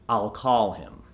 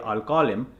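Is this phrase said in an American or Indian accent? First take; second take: American; Indian. First: It is said with an American accent. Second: It is said with an Indian accent. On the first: An American listener understands it easily. The speaker calls it right. "so you want to say I'll call him" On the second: An American listener may find it confusing. The speaker calls it wrong. "otherwise if you say I'll call him, it might become a little convoluted"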